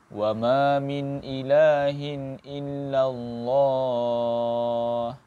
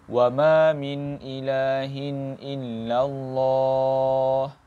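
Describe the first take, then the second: No difference in how they are said.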